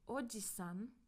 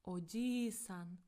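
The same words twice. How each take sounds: First: The vowel after 'j' is short. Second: The vowel after 'j' is held long. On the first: It means uncle. "it's uncle" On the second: It means grandfather. "so it's prolonged, like this"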